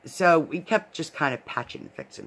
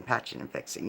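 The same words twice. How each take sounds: First: Said in the usual way. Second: "patching and fixing" whispered, much softer, trailing off; whispered repeat. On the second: Real, not acted. Retelling the loose crown, whispering the repeated fix. Repeats phrase, second fades.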